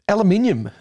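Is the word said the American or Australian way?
Australian. It is said with the Australian pronunciation.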